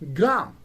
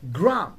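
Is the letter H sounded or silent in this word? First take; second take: silent; silent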